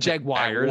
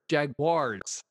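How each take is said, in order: First: The ending sounds like 'wire'. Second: The ending sounds like 'wars'. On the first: The speaker calls it wrong. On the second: The speaker calls it right. "Wars. Wars"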